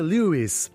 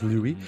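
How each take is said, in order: First: The name ends with an s sound. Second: The name ends without an s sound. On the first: This is how the man himself said his name. "mas o próprio dizia Lewis" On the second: This is how most people say the name. "que é como diz a maior parte das pessoas, e é como se lê este nome em inglês"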